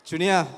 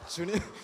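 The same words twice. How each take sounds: First: The name is called out loudly. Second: The name is called softly, as at home.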